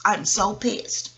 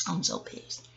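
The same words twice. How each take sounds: First: Slow, drawn-out grumble; a slow muttered complaint; slow annoyed. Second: Breathless whisper of annoyance; whispered aside, barely voiced. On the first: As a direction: let each word drag in annoyance. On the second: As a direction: hiss it under your breath. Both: Real, not acted. Repeats annoyed phrase.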